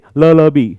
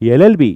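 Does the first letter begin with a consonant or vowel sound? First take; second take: consonant; vowel. First: The first letter begins with an l consonant sound. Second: The first letter begins with a vowel sound. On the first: The speaker calls it wrong. "but we never say l l b" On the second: The speaker calls it right. "a sound is there"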